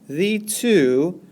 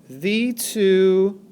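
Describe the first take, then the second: Both takes have the same delivery.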